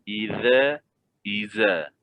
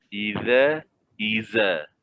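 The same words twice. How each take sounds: Both takes have the same delivery.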